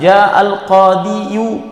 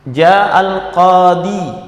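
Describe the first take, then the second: First: The last word ends in an added iyu. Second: The last word ends in a plain i. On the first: The case ending is spelled out openly. The speaker calls it wrong. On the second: The case ending is left hidden. The speaker calls it right.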